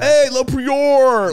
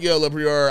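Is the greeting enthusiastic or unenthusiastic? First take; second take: enthusiastic; unenthusiastic. First: The greeting sounds happy and enthusiastic. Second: The greeting sounds flat and unenthusiastic.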